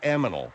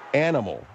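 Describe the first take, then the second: First: The n sound comes after the m sound. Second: The n sound comes before the m sound. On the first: The speaker calls it wrong. "Not aminal" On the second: The speaker calls it right. "N before M, Nancy before Mary"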